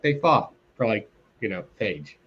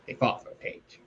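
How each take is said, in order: First: Said in the usual way. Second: "They fought for a page" repeated in a soft, toneless whisper; whispered aside. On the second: Retold or imitated. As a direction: breathe it as a muttered aside. Mocking the comic's sparse plot.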